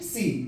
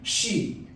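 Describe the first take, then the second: First: The word begins with an s sound. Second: The word begins with an sh sound. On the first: The speaker calls it wrong. "लेकिन सी बोलते हैं लोग" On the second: The speaker calls it right. "शी ना कि सी"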